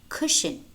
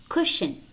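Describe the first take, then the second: No difference in how they are said.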